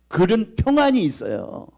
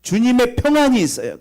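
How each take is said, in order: First: 평안이 slow, higher and louder; stressed peace. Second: 평안이 higher and louder still, falling at the end; building peace. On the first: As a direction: lean slowly on 평안이. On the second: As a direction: climb and hit 평안이 hardest. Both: Acted. Preaching on peace.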